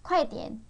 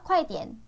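Both takes have the same delivery.

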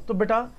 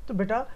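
The two takes are said the same way.

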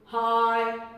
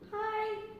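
First: It is said at a low pitch. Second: It is said at a high pitch.

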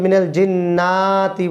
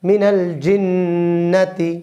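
First: The vowel after 'jinn' is drawn out. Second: The vowel after 'jinn' is kept short. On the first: The speaker calls it wrong. "অনেকে মিনাল জিন্নাতি বলে" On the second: The speaker calls it right. "জিন্না কোনো টান নেই"

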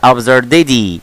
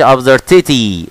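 First: The t sounds like a soft d. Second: The t is a clear, crisp t. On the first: The speaker calls it right. "طبعا التي دايما بن ايه بنخلي نطقها قريب من ايه من الدي، فتقولي بقى" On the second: The speaker calls it wrong. "ما تقولش"

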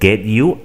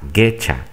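First: The two words are said separately and fully. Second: The words merge into one reduced 'getcha' sound.

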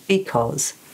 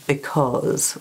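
First: Both syllables have roughly the same length. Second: The first syllable is short and unstressed.

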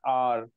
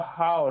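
First: The word begins directly with a vowel. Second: The word begins with an h sound. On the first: The speaker calls it right. "लेकिन ये पढ़ा जाता है आर" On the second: The speaker calls it wrong. "एच से पढ़ेंगे तो हावर हो जाएगा"

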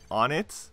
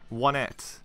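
First: The first syllable sounds like 'on'. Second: The first syllable sounds like 'won'. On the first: The speaker calls it right. "The Japanese pronunciation of on-it is either on-it or on-et. And that's how you pronounce it" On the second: The speaker calls it wrong. "one of my friends decided to say, one-et. And I called him out on it"

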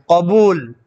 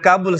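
First: It begins with a deep throat q sound. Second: It begins with a plain front k sound. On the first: The speaker calls it right. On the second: The speaker calls it wrong. "Bukan kabul sebenarnya"

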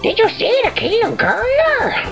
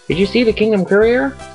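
First: It is said in a Toad voice. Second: It is said in his normal voice.

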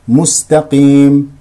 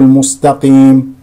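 First: The sin is light, not emphatic. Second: The sin is heavy and emphatic. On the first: The speaker calls it right. "ترقيق السين" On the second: The speaker calls it wrong. "لا نقول"

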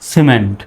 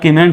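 First: The word begins with an s sound. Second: The word begins with a k sound. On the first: The speaker calls it right. "সির উচ্চারণ কিসের মতো, সর মতো হবে" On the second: The speaker calls it wrong. "এখন আর কিমেন্ট বলা যাবে না"

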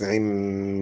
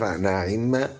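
First: The first vowel is 'i', then a brief 'i'. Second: The first vowel is 'a', then a full 'i'. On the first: "والاختلاس" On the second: "فتحوا النون هرب بالتقاء الكسرتين، وكسروا العين"

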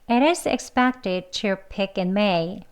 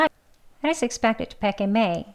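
First: The sentence is spoken slowly and carefully. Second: The sentence is spoken fast with weakened words. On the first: "두 번 같이 해볼게요" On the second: "빨리 또 해보겠습니다"

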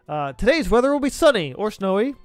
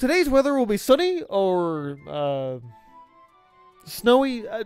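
First: It is read in a plain, ordinary voice. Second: It is read in a put-on announcer voice.

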